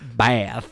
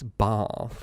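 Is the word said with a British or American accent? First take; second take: American; British. First: It is said with an American accent. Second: It is said with a British accent.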